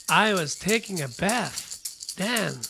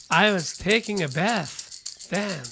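Both takes have the same delivery.

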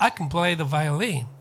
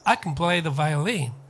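First: The word can is weak and reduced. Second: The word can is weak and reduced.

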